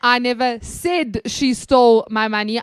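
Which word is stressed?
said. The stress is on "said".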